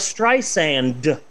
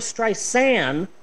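First: The name is said with a d sound. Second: The name is said without a d sound. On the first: The speaker calls it wrong. "it's not Barbara Streisand" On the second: The speaker calls it right. "There's no D. It's [name]"

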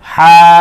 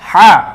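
First: The vowel is stretched out long. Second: The vowel is said quickly and short. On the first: It is the name of the letter. "একালিপ টেনে উচ্চারণ করতে হবে" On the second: It is the letter with a short vowel mark. "এখানে টান দিলাম না"

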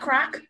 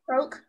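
First: The vowel sounds like the one in 'rock'. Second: The vowel sounds like the one in 'joke'. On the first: The speaker calls it wrong. "Croc is a pot" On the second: The speaker calls it right. "it's C-R-O-A-K. Croke"

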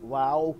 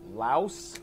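First: The word ends without an s sound. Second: The word ends with an s sound. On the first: This is how local people say it. "they call it Lao" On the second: This is the standard English way of saying it. "that's kind of like the standard English pronunciation"

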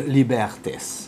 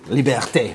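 First: The final s sound is pronounced at the end. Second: The word ends on the vowel, with no s. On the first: The speaker calls it wrong. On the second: The speaker calls it right.

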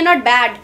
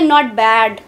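First: It is said in a bright, positive tone. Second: It is said in a flat, doubtful tone. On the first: Everything is good. "कुछ अच्छे situations में आप बोल रहे हैं not bad, everything is good" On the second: Something is not really good. "it means something is not really good"

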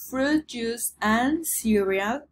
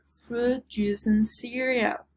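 First: The word and is said in full. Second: The word and is reduced to n.

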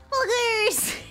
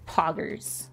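First: The word is said in an excited, hyped tone. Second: The word is said in a stern, angry tone. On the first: "if I were to say it in my more like hype voice" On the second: "That would be me angry"

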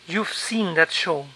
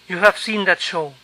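First: 'You have' is contracted to 'you've'. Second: 'You have' is said as two full words.

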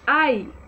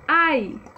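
Both takes have the same delivery.

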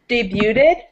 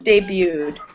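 First: The T sound is clearly pronounced. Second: The T sound is left silent. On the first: The speaker calls it wrong. "this looks like debuted" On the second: The speaker calls it right. "it's actually pronounced debuted. So it's a silent T"

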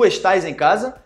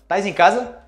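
First: The verb is said in full as estás. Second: The verb is shortened to tais. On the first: This is the textbook form. "Tu estás em casa?" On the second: This is how people actually say it. "Mas a gente fala"

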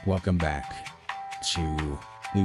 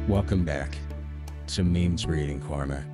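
First: It is said in a very upbeat way. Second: It is said in a calmer, quieter way.

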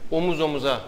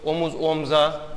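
First: The second word keeps its middle vowel. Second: The second word drops its middle vowel. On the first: The speaker calls it right. "doğrudur" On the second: The speaker calls it wrong. "yanlıştır"

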